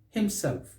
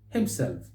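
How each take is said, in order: Both takes have the same delivery.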